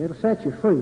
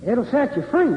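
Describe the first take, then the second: First: FREE brought down in a settled fall; affirming answer. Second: FREE lifted high in a rising question; questioning prompt. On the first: Speaker answering their own question to the audience, affirming. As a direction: confirm it at normal pitch, falling on FREE. Confirms the answer after prompting. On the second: Preacher-like speaker prompting the audience with scripture, questioning. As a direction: prompt the crowd, pitch climbing up to FREE. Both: Real, not acted.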